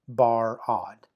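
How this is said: The syllable break comes right after the R sound. The second syllable begins with a vowel. The speaker calls it wrong. "it cannot be Bar-od"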